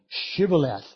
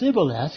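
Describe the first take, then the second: First: The word begins with an 'sh' sound. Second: The word begins with a plain 's' sound. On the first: The speaker can make the sh sound. The speaker calls it right. "but they couldn't say Shibboleth" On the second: The speaker cannot make the sh sound. The speaker calls it wrong. "They could say it Sibboleth"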